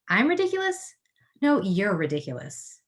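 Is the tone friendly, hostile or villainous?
hostile. It sounds hostile, as to someone disliked.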